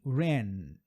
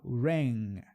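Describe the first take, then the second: First: Ran ending on a plain N. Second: Ran ending in ng with the tongue dropped. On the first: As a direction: stop on the tongue N in ran. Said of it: "termina no som do N". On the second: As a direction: let the back of the tongue close as ng. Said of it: "eu desço a língua". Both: Shown as a demonstration.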